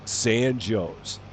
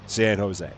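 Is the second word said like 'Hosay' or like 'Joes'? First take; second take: Joes; Hosay. First: The second word sounds like 'Joes'. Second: The second word sounds like 'ho-say'. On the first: It names the town in Illinois. "it is pronounced San Joe's" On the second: It names the city in California. "you're probably familiar with San Jose, California"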